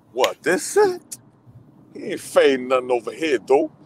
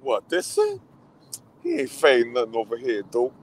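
First: Mock tough-girl voice, pitch leaping up; acting out the movie character. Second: Put-on a lighter second take of the tough-girl line; replaying the character again. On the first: Fan replaying favorite scene for friend, mock tough-girl voice. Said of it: "That's my favorite". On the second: Fan repeating line to friend, lighter mock voice. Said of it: "She's like".

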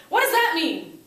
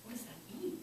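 First: Loud, high outburst; frustrated kids. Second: Soft, questioning lift; pondering brain. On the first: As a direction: blurt it like a baffled student. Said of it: "the kids go". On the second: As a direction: wonder it quietly to yourself. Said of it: "Your brain is supposed to go". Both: Acted.

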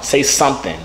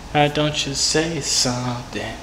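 First: Said in the usual way. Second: Slow, stretched "say something"; drawn-out coaxing. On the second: Real, not acted. Coaxing a silent caller to talk, "say something" very slow. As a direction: stretch out "say something" slowly and evenly. Coaxing after repeated tries.

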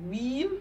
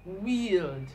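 First: "Wheel" rising, ending on l; "Wheel" said weel, no final d. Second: "wield" ending on a clear d; "wield" said weeld, falling. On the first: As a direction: stop on the l in "Wheel". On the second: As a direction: finish "wield" with the d. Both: Shown as a demonstration. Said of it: "See the difference?".

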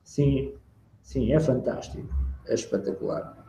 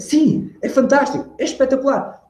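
First: Low, soft, lifeless praise; unenthusiastic. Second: High-pitched, lively praise; animated demo of delight; enthusiastic. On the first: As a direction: say it with no energy, barely voiced. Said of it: "Porque se eu estou a falar assim". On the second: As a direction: exclaim it as if thrilled, pitch soaring. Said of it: "E se eu fizesse". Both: Shown as a demonstration.

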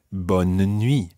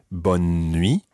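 First: BONNE NUIT as three syllables, bon-nuh-nwee; mini middle syllable. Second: BONNE NUIT run together as two syllables on one N; skipping N. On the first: Teacher showing the other variant, mini middle syllable. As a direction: slip a small "uh" between BONNE and NUIT. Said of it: "with almost a mini syllable in the middle there". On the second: Teacher showing one regional variant, skipping N. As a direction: skip straight from BONNE into NUIT, no vowel between. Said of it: "almost with a kind of skipping N in the middle". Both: Shown as a demonstration.

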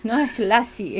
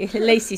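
First: Lazy said as lasi with a flat a; the mistaken Spanish-style lazy, lasi; wrong pronunciation. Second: Lazy said as leisi, English ei sound; the correct English lazy, leisi; English pronunciation. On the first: (lazy pronunciado lasi, con a abierta) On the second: (lazy pronunciado leisi, a la inglesa) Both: Shown as a demonstration. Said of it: "Por eso te digo lazy o lazy".

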